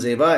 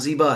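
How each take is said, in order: First: It is said the Urdu way, with an 'e' vowel. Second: It is said the Persian way, with an 'ee' vowel. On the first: This is how Urdu speakers say it. "हम लोग का प्रोनाउंसिएशन जेबा है" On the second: This is how native Persian speakers say it. "जिनकी जबान का लफ्ज है उनके यहाँ जीबा है"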